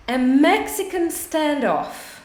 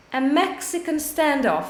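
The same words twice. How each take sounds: First: Slow model phrase. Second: Said in the usual way. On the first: Shown as a demonstration.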